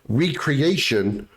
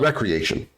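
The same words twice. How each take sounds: First: The word begins with a long 'ree' sound. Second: The word begins with a short 'rek' sound. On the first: Something is created again. The speaker calls it right. "the word is supposed to be recreation" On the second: Having fun. The speaker calls it wrong. "not recreation"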